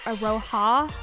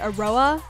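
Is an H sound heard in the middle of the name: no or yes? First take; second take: yes; no. First: The name is said with an H sound. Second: The name is said without an H sound. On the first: This is how the dub says it. "in the dub it's Aroha" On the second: This is how the speaker always said it. "I've always said it Aroa without the H"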